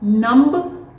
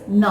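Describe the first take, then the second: First: A B sound is pronounced at the end. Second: No B sound is pronounced at the end. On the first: The speaker calls it wrong. "it is not numb" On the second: The speaker calls it right. "But B is silent over here"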